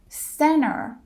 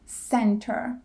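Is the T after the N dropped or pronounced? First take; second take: dropped; pronounced. First: The T after the N is dropped. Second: The T after the N is pronounced. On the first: The speaker calls it right. "or center instead of" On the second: The speaker calls it wrong. "instead of center"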